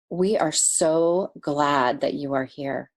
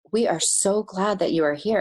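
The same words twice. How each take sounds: First: Slow, heartfelt welcome; a gentle greeting meant just for her; sincere welcome. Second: Said in the usual way. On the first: Retold or imitated. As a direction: say it slowly with full sincerity. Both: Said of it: "he said it with the most sincerity".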